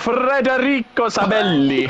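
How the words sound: It is said with an exaggerated Italian accent.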